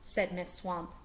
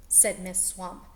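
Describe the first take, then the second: No difference in how they are said.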